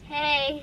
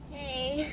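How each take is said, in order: First: It is said loudly. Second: It is said quietly.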